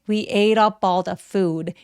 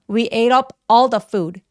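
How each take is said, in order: First: The words run smoothly together with a soft flap. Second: The words are said separately with breaks between them. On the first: The speaker calls it right. "부드럽게 연결하면서 가볍게 된 소리가 날 수 있게" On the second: The speaker calls it wrong. "이러면 또 끊어지는 느낌이 들기 때문에"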